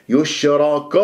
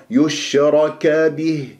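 First: "يشرك" ending in a dark "ko"; wrongly heavy kaf. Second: "يشرك به" with heavy ra then thin bright "ka"; slow recited "يشرك به", thin kaf; light kaf. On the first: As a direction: thicken the final ka of "يشرك". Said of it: "خطأ". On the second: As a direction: keep the kaf of "يشرك به" light after the full ra. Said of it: "كا مرقق". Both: Shown as a demonstration.

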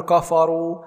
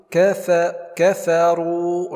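First: كفروا with dark, backed "kaafaa" vowels; wrong heavy faa. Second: كفروا with thin, fronted "kefe", heavy r; light faa. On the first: Teacher shows what not to say, heavy faa in كفروا. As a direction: make the faa of كفروا thick. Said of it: "ولا نقول". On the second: Teacher models correct recitation, light faa in كفروا. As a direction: keep faa thin in كفروا, draw out the ending. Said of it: "الفاء من حروف مستفيلة مرقق". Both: Shown as a demonstration.

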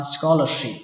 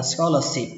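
First: "scholarship" with a clear sh in the last syllable; correct SH sound. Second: "scholarship" ending in a plain s, as "scholar-sip"; wrong S sound. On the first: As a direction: say "scholarship" ending in "ship", not "sip". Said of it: "ở đây là âm sờ nhé". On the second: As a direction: say "scholarship" with s in place of sh. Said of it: "Không phải là". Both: Shown as a demonstration.

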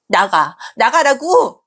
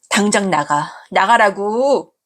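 First: 나가라고 shouted higher and louder; 나가라고 as a high, loud furious shout; angry shout. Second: Slow, heavy, falling 나가라고; 나가라고 said slow and firm, falling at the end; firm order. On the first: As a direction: yell 나가라고 at her. Daughter repeats order, escalating. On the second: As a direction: lay down 나가라고 slowly and coldly. Daughter ordering mother out. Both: Acted.

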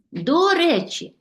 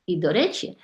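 First: До речі, with the stress on до, said high and slow. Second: Said in the usual way. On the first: Shown as a demonstration. Teacher dictates До речі, slow and high with the stress on до. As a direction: lift and stretch до in До речі, set against the casual phrase. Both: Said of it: "запам'ятовуйте, діти".

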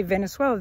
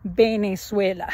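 First: "Venezuela" starting with a V sound; English V pronunciation. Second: "Venezuela" said with B for V, Benezuela; Spanish B pronunciation. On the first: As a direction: say "Venezuela" with a clear V, teeth on lip. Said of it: "they're not gonna say Venezuela". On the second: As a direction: start "Venezuela" on a B, lips together. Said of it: "they're gonna say Venezuela". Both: Shown as a demonstration.

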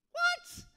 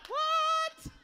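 First: High, loud shocked yelp; shocked what. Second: Pushed higher, loud squealed what; even higher what. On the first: Retold or imitated. Retelling his reply to the Lord, a loud yelp. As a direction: squeal the what in disbelief. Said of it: "Same what?". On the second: Shown as a demonstration. Pushing the joke, a louder, higher what. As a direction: take the what up further. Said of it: "I could go higher with it".

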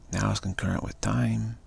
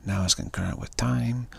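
Both takes have the same delivery.

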